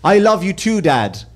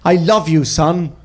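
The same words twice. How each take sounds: First: A hint of a heartfelt son; sincere TV son. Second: Lightly acted earnest father, falling tone; a hint of a sincere father; sincere TV dad. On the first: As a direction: answer as a sitcom son, understated. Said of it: "looked at his father and he went". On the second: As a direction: play a sitcom dad's heartfelt moment, understated. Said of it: "looked his son dead in the eyes".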